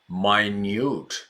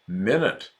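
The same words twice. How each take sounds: First: The first vowel is a long vowel. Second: The first vowel is a short i. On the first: Extremely small. "for extremely small, the pronunciation is minute" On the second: A unit of time. "when we're talking about time"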